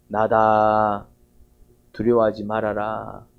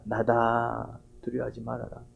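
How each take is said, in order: First: Very slow, calm words, a little lower; Jesus on the water calming his disciples, slow and gentle; gentle reassurance. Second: Much softer and lower, fading almost to nothing; Jesus whispering to frightened disciples at night, softly hushed. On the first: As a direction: speak as Jesus calming frightened disciples, unhurried. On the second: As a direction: murmur it like a voice drifting over the water. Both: Acted. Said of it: "그런 속삭임이 들립니다".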